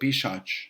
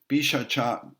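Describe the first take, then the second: First: The word ends with a consonant sound. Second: The word ends with a final vowel sound.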